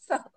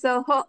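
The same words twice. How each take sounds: First: The word ends in a light breathy h. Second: The word ends in a full ha syllable. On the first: The speaker calls it right. "नंतर तो विसर्ग आहे" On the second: The speaker calls it wrong. "स आणि ह, सह असं नाही म्हणायचं"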